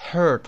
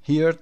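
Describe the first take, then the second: First: "heard" with one r-coloured vowel, like "herd"; correct pronunciation of heard. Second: "Heard" wrongly said as "heerd"; mispronounced heard. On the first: Teacher showing learners how "heard" is read, correct pronunciation. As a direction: say "heard" to rhyme with "bird". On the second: Teacher warning learners off a misreading, "Heard" mispronounced as "heerd". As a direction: say "Heard" like "hear" with a d added. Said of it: "Heard نخونید". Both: Shown as a demonstration.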